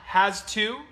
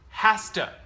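First: The two words are said separately. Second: The two words are linked together.

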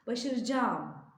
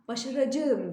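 First: The ending merges into one lengthened vowel. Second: Every syllable is pronounced just as spelled. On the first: The speaker calls it right. "Başaracağım diye okuyoruz" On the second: The speaker calls it wrong. "başaracağım diye yazıyoruz"

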